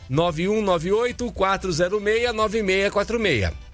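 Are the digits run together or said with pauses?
run together. The digits are run together in one go.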